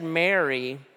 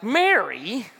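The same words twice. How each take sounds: First: The name is said gently, not yelled. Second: The name is yelled in exasperation.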